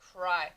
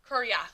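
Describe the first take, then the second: First: The Y is said as a long eye sound. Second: The Y is said as a ya sound. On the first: The speaker calls it right. "Y, making that long I sound" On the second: The speaker calls it wrong. "if you were to say this with just Y saying ya, it wouldn't really make sense"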